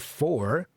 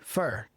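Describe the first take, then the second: First: The word is said in its full form. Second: The word is said in a reduced form. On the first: "rarely for" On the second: "it's usually for"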